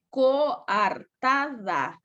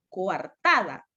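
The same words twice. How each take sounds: First: "Coartada" very slowly as co-ar-ta-da; syllable by syllable. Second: Said in the usual way. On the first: Shown as a demonstration. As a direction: pause between every syllable of "Coartada". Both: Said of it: "Aquí está la mayor fuerza".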